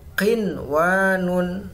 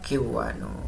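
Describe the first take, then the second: First: The n sound is clearly pronounced. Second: The n sound is dropped into the w. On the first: The speaker calls it right. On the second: The speaker calls it wrong.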